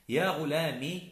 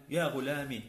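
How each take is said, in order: First: "غلامي" ending in short i; "غلامي" with only a kasra on the meem; kasra without ya. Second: "غلامي" ending in a long ee; "غلامي" with the ya sounded as pure long vowel; silent final ya. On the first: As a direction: cut the ending of "غلامي" to ghu-laa-mi. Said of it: "ميم مع كسرة". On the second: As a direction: say "غلامي" as ghu-laa-MEE. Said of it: "إثبات الياء الساكنة". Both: Shown as a demonstration.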